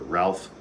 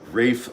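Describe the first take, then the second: First: It is said the American way, as spelled. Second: It is said the British way, sounding like Rafe.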